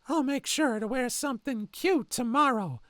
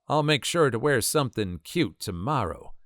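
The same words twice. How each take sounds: First: It is said in a creepy Herbert impression voice. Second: It is said in the speaker's normal voice.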